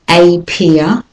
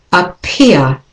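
First: A peer with a full AY, AY PEER; a peer as two stressed words; wrong way. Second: Appear with a schwa start, uh-PEER; right way. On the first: Teacher shows how not to say a peer. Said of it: "the next word is not a peer". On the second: Teacher models appear with a schwa. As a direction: appear begun with a weak uh. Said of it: "but appear". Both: Shown as a demonstration.

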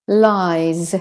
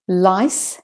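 First: "lies" with a long vowel and buzzing z; minimal-pair demo, "lies" ending in z; voiced Z ending. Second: "Lice" with a crisp hissed s at the end; minimal-pair demo, "Lice" ending in sharp s; voiceless S ending. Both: Shown as a demonstration. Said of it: "when the S says S or the S says Z".

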